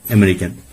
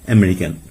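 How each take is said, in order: Both takes have the same delivery.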